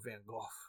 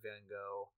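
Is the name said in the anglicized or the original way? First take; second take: original; anglicized. First: The name is said in the original way. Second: The name is said in the anglicized way. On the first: The speaker calls it right. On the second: The speaker calls it wrong.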